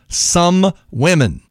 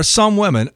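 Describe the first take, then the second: First: "Some" drawn out slowly and set apart; stress on SOME. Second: Said in the usual way. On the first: Shown as a demonstration. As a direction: hit "Some" hard, as if boldfaced. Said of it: "please underline in red twice". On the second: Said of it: "boldface the word some".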